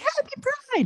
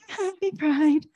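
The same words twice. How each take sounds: First: It is said with lively, high energy. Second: It is said with tired, low energy.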